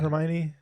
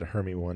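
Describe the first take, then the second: First: The name ends with a 'knee' sound. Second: The name ends with the word 'one'. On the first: This is how the name is said in the movies. The speaker calls it right. "Did you know the name" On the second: This is how the name was guessed from reading. The speaker calls it wrong. "I just said Hermy one in my head"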